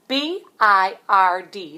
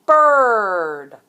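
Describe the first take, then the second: First: Slow, letter by letter; spelling out. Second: Louder, proud reveal of "bird"; reveal word. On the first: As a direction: spell each letter out slowly. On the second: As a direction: announce "bird" as the answer. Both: Shown as a demonstration.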